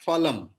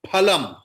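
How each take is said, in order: First: It begins with an f sound. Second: It begins with a breathy p sound. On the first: The speaker calls it wrong. "not phalam" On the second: The speaker calls it right. "in Sanskrit it is pha"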